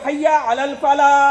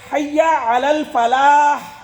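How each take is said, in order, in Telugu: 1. ఈ వాక్యం h లేకుండా అచ్చుతో ముగుస్తుంది. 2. ఈ వాక్యం స్పష్టమైన h శబ్దంతో ముగుస్తుంది. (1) "హా పలకరు" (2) "హా స్పష్టంగా పలకాలి"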